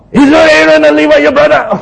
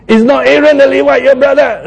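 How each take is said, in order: First: Higher, louder angry rebuke; angry God. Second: A first, milder angry rebuke, higher; angry God. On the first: Preacher imitating God angrily scolding Moses, higher and louder. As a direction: scold him like a furious God. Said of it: "so God is angry again". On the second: Preacher trying out God's angry rebuke to Moses, a first attempt. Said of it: "I'm just trying to imitate God, say, as if he's angry". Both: Acted.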